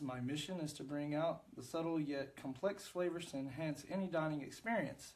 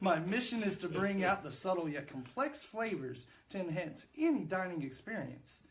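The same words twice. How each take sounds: First: It is read in a plain, ordinary way. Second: It is read deep, with heartfelt feeling.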